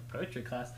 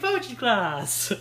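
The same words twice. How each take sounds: First: It is said in a flat, uninterested tone. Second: It is said in a cheerful, eager tone. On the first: The character does not care about the class. "he wouldn't be interested" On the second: The character is thrilled about the class.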